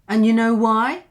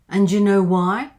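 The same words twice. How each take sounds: First: The D sound is dropped completely. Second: The D and Y blend into a j sound. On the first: "Just drop the D instead" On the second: "you could have this sound, j"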